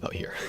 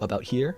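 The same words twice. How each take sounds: First: The voice is pitched noticeably lower. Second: The voice is pitched noticeably higher. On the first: It is the speaker's comfortable everyday voice. "But my regular voice is about here" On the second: It sounds friendlier and more energetic. "I do speak in a higher voice. I could go about here"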